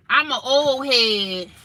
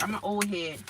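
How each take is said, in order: First: Slow, stretched and a bit higher, louder; drawn-out old head voice. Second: Said in the usual way. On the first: Shown as a demonstration. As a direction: stretch it out like a playful old-timer.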